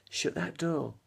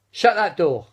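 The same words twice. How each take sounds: First: Softer, drawn camp line; softer campy delivery of Shut that door; Larry Grayson catchphrase. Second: Louder, higher camp call; Larry Grayson catchphrase. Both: Pretend. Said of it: "that was Larry Grayson".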